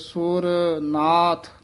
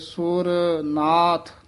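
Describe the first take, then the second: First: Sur and nath are said as separate words. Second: Sur and nath are said as separate words.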